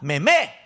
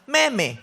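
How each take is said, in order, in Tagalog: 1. Ang diin ay nasa pangalawang pantig. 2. Ang diin ay nasa unang pantig. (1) "sa pangalawang me ang stress, ang bagsak" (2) "ginagawa ko kasi meme, hindi"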